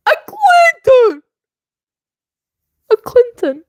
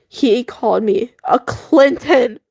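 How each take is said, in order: First: Shrieking the name in outrage; outraged disbelief. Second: Said in the usual way. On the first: Real, not acted. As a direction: say it like you can't believe it.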